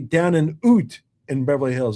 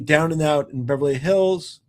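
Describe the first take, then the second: First: 'Out' is said with a Canadian accent. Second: 'Out' is said with a standard accent.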